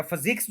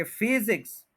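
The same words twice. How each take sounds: First: physics as fuh-ZIKS, first syllable weak; stress on second syllable. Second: physics with strong FEE, light ZIKS; stress on first syllable. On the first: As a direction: shift the weight to ZIKS in physics. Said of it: "या physics जो है वो ज्यादा अच्छा". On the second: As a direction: put the weight on FEE in physics. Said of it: "physics ज्यादा अच्छा". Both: Shown as a demonstration.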